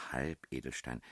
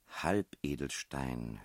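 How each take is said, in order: First: Said in the usual way. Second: Very slow, drawn-out reading of the clue; pondering aloud. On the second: A narrator's reading. Billy reading a crossword clue to the princess, slowly pondering. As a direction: stretch the word out while puzzling over it.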